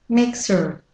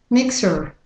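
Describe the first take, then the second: Both takes have the same delivery.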